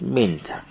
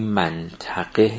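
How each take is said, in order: First: The first syllable is said with an 'i' vowel. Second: The first syllable is said with an 'a' vowel. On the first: The speaker calls it right. "منطقه است" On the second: The speaker calls it wrong. "این منطقه نیست"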